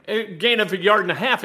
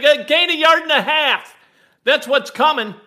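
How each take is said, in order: First: Said in the usual way. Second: Raised voice, half-yelled prediction; retold yell. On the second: Fan yelling his prediction at his wife, loud. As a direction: call it out loud like a fan sure of the play. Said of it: "I yelled at my wife".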